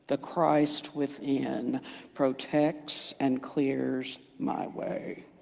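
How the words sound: It sounds flat and unconvincing. The speaker does not really believe it. The speaker calls it wrong. "Would you believe me if I said it like that?"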